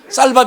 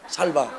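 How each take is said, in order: First: The first s sound is tense and strong. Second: The first s sound is plain and soft. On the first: The speaker calls it right. "쌀밥이 안 되고" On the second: The speaker calls it wrong. "경상도 사람하고 똑같아요"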